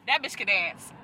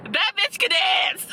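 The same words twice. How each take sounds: First: Low, softer aside; understated. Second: Higher, drawn-out exclamation; emphatic praise. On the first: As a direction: say it low, almost to yourself. Repeats praise, low then exclaimed. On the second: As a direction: stretch it out in delighted emphasis. Repeats praise, building to exclamation. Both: Real, not acted.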